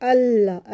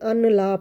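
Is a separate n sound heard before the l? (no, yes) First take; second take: no; yes. First: The n merges quickly into a doubled l. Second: An n sound is heard before the l. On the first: The speaker calls it right. "अल्लाह ऐसे" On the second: The speaker calls it wrong. "नून की आवाज़ भी बना लेते हैं, अन ला पढ़ लेते हैं, तो ये गलत है"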